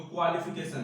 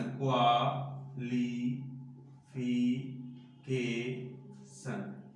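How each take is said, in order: First: Said in the usual way. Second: qualification very slowly, in five separate drawn-out syllables. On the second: Shown as a demonstration. Teacher showing children the five syllables, qualification slowly split apart. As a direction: break qualification into five beats with clear pauses. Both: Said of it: "इसमें पांच syllable हुआ".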